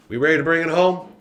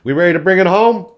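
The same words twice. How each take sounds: First: Said in the usual way. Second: Loud, high, fast rally call; hyped-up call. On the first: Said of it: "repeat of the call, lower-key". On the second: Real, not acted. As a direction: pump the crowd up for the finale. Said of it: "hyping up the closing segment".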